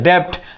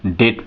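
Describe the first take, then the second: First: A b-like sound is pronounced before the t. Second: No b sound is pronounced before the t. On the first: The speaker calls it wrong. "अधिकांश लोग डेप्ट पढ़ते हैं" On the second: The speaker calls it right. "इसको हम डेट पढ़ते हैं"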